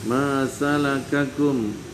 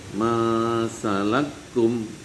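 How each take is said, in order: First: The two k syllables are said separately. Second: The two k syllables are merged into one.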